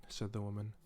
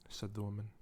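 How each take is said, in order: Both takes have the same delivery.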